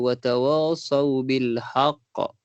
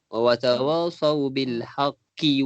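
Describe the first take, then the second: First: The last word ends abruptly on the consonant. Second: The last word ends on a short vowel. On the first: The reader stops after this word. "kalau puan nak berhenti kat bil haq" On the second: The reader continues into the next words. "kalau nak sambung"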